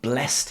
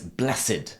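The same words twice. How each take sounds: First: The word is said in its verb pronunciation. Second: The word is said in its adjective pronunciation. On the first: It is the past participle of bless. "I have blessed him" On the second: It describes someone as holy or fortunate. "But he is blessed"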